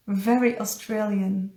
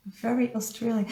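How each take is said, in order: First: Said in the usual way. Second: "Very Australian" repeated softer and faster, under the breath; soft quick echo. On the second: Real, not acted. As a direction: mutter it back to yourself, quickly.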